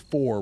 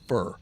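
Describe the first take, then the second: First: The vowel is full and clearly pronounced. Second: The vowel is reduced and slurred. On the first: "We won't say for" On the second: "they will slur words like for and to"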